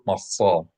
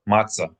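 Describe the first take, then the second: First: The middle consonant is a pharyngealized emphatic s. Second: The middle consonant is plain, not emphatic. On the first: This is the proper classical form. "Proper Hebrew, classical Hebrew, It's a pharyngalized emphatic S sound" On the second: This is the everyday popular form. "In popular lingo"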